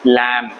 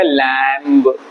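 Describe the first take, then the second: First: लैम ending on the m, no b; silent b. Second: LAMB said slowly with the final b voiced, as लैम्ब; sounded silent b. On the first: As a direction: close लैम on m and leave off the b. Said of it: "pronunciation इसका है लैम". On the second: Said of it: "इसको ऐसे pronounce नहीं करेंगे". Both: Shown as a demonstration.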